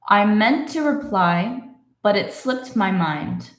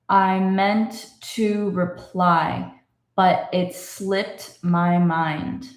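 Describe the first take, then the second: First: The sentence is read faster. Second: The sentence is read slowly. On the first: "Can we go a little bit faster?" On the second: "let's read it slowly again"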